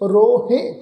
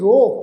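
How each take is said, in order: First: The word ends with an added -he syllable. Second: The word ends on a plain long vowel. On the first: The speaker calls it wrong. "ਇਸ ਢੰਗ ਨਾਲ ਨਹੀਂ ਕਰਨਾ" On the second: The speaker calls it right. "ਇਸ ਸ਼ਬਦ ਦਾ ਉਚਾਰਨ ਕਰਾਂਗੇ ਜੀ ਰੋ"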